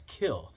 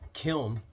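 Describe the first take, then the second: First: The word ends without any N sound. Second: The word ends with a clear N sound.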